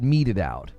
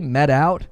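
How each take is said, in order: First: The first word has two syllables, 'meted'. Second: The first word has one syllable, 'met'. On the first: The speaker calls it right. "you're supposed to say it meted out" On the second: The speaker calls it wrong. "What was the thing that I would say?"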